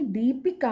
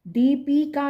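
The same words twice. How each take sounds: First: दीपिका with a short इ in पि; correct short vowel. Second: दीपिका with a long ई in पि, as deepeeka; wrong long vowel. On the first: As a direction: keep the middle of दीपिका short. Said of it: "पा में छोटी की मात्रा". (दीपिका में 'पि' छोटा बोलें) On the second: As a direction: stretch the middle of दीपिका, pitched higher. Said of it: "दीपिका नहीं". (दीपिका में 'पी' लंबा बोलें) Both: Shown as a demonstration.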